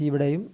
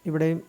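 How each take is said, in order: The two takes are said the same way.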